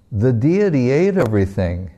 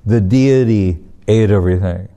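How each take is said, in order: First: Lightly voiced child, pitch swooping up midway; a boy's guileless announcement; innocent report. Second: Mock disbelief, leaning on DEITY; incredulous echo. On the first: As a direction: state it brightly as simple fact, amused underneath. Boy innocently reports to father. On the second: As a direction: repeat it back as a doubting father. Father echoes boy in disbelief.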